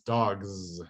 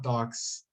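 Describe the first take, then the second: First: The final sound is a voiced z. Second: The final sound is a voiceless s. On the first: The speaker calls it right. "It's dogs. It's voiced" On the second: The speaker calls it wrong. "It's not dogs"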